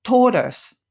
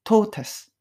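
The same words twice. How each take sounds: First: It is said with an American accent. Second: It is said with a British accent.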